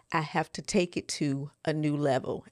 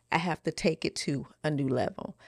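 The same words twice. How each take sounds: The two takes are said the same way.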